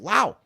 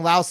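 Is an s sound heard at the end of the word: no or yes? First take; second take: no; yes. First: The word ends without any s sound. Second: The word ends with an audible s sound. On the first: The speaker calls it right. "the S in Laos is actually silent, so it's Lao" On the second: The speaker calls it wrong. "we all kept saying Laos"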